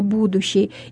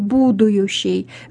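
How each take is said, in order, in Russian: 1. Лишнего звука y в середине не появляется. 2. Лишний звук y появляется в середине. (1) "вместо «будущий»" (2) "согласный «йод», «и» в слове «будущий»"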